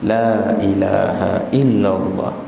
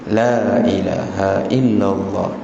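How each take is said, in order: The two takes are said the same way.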